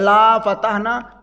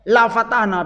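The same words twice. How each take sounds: First: The vowel in 'la' is long. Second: The vowel in 'la' is short. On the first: We will not open it. The speaker calls it wrong. "Kalau dibaca panjang" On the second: We will surely open it. The speaker calls it right. "La fatahna pendek"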